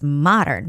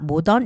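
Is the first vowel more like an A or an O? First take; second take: A; O. First: The first vowel sounds like an open A. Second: The first vowel sounds like a rounded O. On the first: The speaker calls it right. "the O has more like an A sound, not O sound" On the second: The speaker calls it wrong. "It's not modern"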